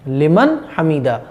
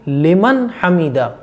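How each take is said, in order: No difference in how they are said.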